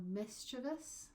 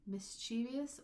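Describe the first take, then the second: First: "mischievous" as MIS-chuh-vus, first syllable stressed; three syllables. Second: "Mischievous" as mis-CHEE-vee-us, middle stressed; extra syllable. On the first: Teacher showing the other pronunciation, stress on MIS. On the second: Teacher showing the obvious variant, stress on CHEE. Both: Shown as a demonstration. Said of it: "a little bit different pronunciation".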